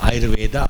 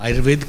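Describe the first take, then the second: First: The word ends with an added 'a' vowel. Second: The word ends in a consonant sound. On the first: The speaker wants to sound like an English speaker. The speaker calls it wrong. "Impression डालने के लिए कि हम English बोलते हैं" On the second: The speaker is properly educated. The speaker calls it right. "बढ़िया पढ़ा होगा तो उतना ही उच्चारण करेगा जो है"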